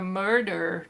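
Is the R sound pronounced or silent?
pronounced. It is said in an American accent, R pronounced.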